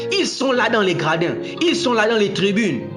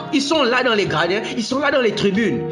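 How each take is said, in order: Both takes have the same delivery.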